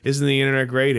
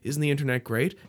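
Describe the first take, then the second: First: It sounds sarcastic and weary. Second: It sounds sincere and enthusiastic. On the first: The speaker is fed up with everyone having a voice. "And now in 2017, people are like" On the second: The speaker truly welcomes everyone having a voice. "In 2007, it was like"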